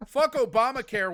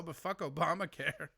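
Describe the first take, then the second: First: Loud blustering politician's slogan; mock Republican politician. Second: Softer, offhand politician's slogan; mock Republican politician. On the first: Mocking the Republican Party, a hint of a blustering pundit. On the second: Mocking the Republican Party, lightly voiced offhand pundit. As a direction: toss off fuck Obamacare with a shrug. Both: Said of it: "Republican Party talking about healthcare".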